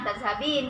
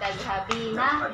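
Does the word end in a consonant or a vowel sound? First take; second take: consonant; vowel. First: The word ends with a consonant sound. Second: The word ends with a final vowel sound. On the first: This is the casual shortened form. "dibilang tazhabin aja" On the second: This is the full formal form. "harusnya tazhabina"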